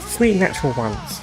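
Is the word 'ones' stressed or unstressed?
unstressed. The word 'ones' carries no emphasis. The speaker calls it wrong. "He didn't put the emphasis"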